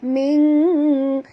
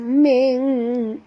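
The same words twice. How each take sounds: No difference in how they are said.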